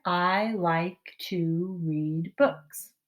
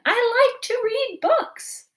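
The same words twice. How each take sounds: First: Every word drawn out slowly, one by one; slow careful read. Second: High and loud, slow and thrilled; very excited. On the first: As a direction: read it slowly for little ones to follow. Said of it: "Can you make it say that up here?". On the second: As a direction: gush it like the best news ever. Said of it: "We're doing it very excited". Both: Shown as a demonstration.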